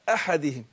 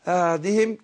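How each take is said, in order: First: The second consonant is a clear breathy ha. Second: The second consonant sounds like a voiced ayn. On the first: The speaker calls it right. "لا أحدهم" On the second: The speaker calls it wrong. "ما قلتش أعد يعني أدخلها على أعدهم كده"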